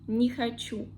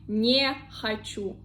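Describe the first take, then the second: First: Не is joined to the next word, unstressed. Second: Не is said apart, as its own word. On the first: The speaker calls it right. "I say не хочу" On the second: The speaker calls it wrong. "I don't say не хочу"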